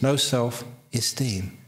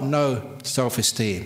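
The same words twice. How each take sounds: First: No-self stands apart before esteem. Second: No stands apart before self-esteem. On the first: It means valuing the idea of no self. The speaker calls it right. "it's no self-esteem" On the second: It means lacking any self-esteem. The speaker calls it wrong. "It's not no self-esteem"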